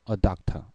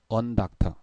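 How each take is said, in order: First: The article is a bare vowel before the noun. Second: An n sound links the article to the noun. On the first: The speaker calls it right. "자연스럽죠?" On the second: The speaker calls it wrong. "부자연스러워요"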